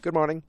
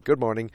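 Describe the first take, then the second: First: Lightly voiced, higher-pitched hello; a hint of her higher voice; imitated woman's greeting. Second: Said in the usual way. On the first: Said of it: "She's like". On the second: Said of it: "He's like".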